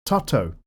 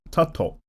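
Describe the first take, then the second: First: Tutto, first vowel like the u in up, falling. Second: Tutto with a rounded final O, not the O of top, falling; Tutto with O unlike top. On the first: Correcting a viewer's name, he says Tutto with the A like up. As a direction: say Tutto as tuh-toh. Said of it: "The A is pronounced like up". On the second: Trying again on the viewer's name, he sets Tutto's final O apart from top. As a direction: say Tutto ending in a clean oh. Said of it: "the O is unlike the word top". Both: Shown as a demonstration.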